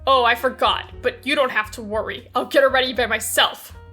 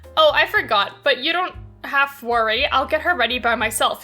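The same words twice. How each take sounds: First: It is said in a cold tone. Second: It is said in a warm, friendly tone.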